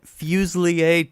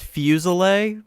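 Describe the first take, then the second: First: Fuselier said as FEW-zlee-ay; "Fuselier" ending in a French-style lee-AY; more correct pronunciation. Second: Fuselier said as FEW-zuh-lay; anglicised "Fuselier", three syllables ending in LAY; usual English pronunciation. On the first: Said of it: "technically is probably more correct". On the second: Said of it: "it's usually pronounced Fuselier". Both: Shown as a demonstration.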